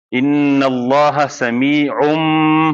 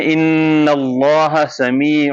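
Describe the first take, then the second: First: ان اللہ سمیع read slowly with a clear, closed-lip M; Pakistani recitation. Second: ان اللہ سمیع slow, with N gliding into M and lips left a little apart; Arabic recitation. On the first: Teacher demonstrating the Pakistani style of recitation, slow and clear. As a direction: demonstrate the Pakistani way, lips closing on the M. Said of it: "جو پاکستانی لہجہ ہے وہ یہ ہے". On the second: Teacher demonstrating the Arabic recitation style, slow. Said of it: "Arabic لہجہ یہ ہے کہ آپ پہلے نون بول کے میم پہ change". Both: Shown as a demonstration.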